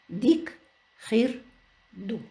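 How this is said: Each word is said separately with pauses.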